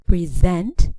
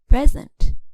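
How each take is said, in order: First: The stress is on the second syllable. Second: The stress is on the first syllable. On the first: It is used as a verb. "for verbs we stress the second syllable" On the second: It is used as a noun. "for nouns the stress falls on the first syllable"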